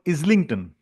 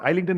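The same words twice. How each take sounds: First: The first syllable does not sound like 'eye'. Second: The first syllable sounds like 'eye' in 'island'. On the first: The speaker calls it right. "it's a place called Islington" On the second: The speaker calls it wrong. "it's not Islington"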